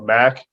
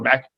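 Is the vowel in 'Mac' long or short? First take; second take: long; short. First: The vowel is drawn out long. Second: The vowel is said short. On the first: This is the conference with the extra A. "we can say it longer" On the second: This is the conference with one A. "they have to go Mac"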